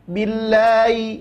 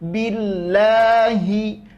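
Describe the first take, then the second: First: The H sound is slurred and dragged over. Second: The H sound is pronounced clearly. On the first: The speaker calls it wrong. "seolah-olah huruf ha itu terseret. Jangan" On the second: The speaker calls it right. "tapi jelaskan billahi"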